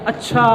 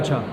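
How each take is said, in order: First: The word is said in a scornful, dismissive tone. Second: The word is said in a calm, accepting tone. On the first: The reply seems to belittle the other person. "जब उसने उसका लहजा बदला" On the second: The listener simply accepts what was said. "उसने ये जवाब दिया"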